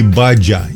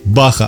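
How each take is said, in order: First: The middle consonant is a dzh sound. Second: The middle consonant is a breathy h sound. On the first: The speaker calls it wrong. "а не «баджа»" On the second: The speaker calls it right. "произносится именно как «баха»"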